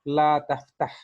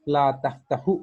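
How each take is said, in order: First: The verb ends on a bare consonant. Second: The verb ends with a short u vowel. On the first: The speaker calls it right. "बल्कि हम कहेंगे ला तफ़्तह" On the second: The speaker calls it wrong. "हम ला तफ़्तहु नहीं कहेंगे"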